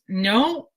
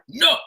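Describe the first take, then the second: First: The word is said gently and warmly. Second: The word is said harshly and forcefully. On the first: It is a caring refusal, just not today. The speaker calls it right. "you're saying it with love" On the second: It sends out negative energy and rejection. The speaker calls it wrong. "in an energy that is negative and forceful"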